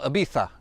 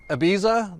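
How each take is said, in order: First: The z is said like a th. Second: The z is said like an s.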